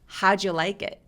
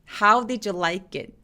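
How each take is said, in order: First: The first d of did is dropped. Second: The first d of did is pronounced.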